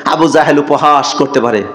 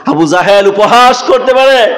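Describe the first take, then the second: First: Said in the usual way. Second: High, ringing repeat of a plea; raised, intoned sermon cry; impassioned preaching. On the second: Retold or imitated. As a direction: lift the voice high for the crowd. Same words repeated with raised voice.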